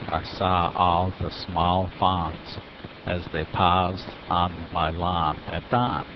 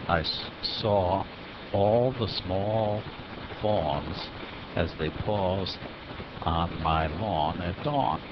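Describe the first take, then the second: First: The words use an open 'ah' vowel. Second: The words use a rounded 'aw' vowel. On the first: The speaker calls it wrong. "substituting ah for awe" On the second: The speaker calls it right.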